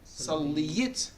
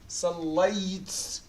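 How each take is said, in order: First: The marked letter carries a short i vowel. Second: The marked letter carries no vowel at all. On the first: "If I put كسرة" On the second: "If I put سكون, how are you going to pronounce two sukuns here?"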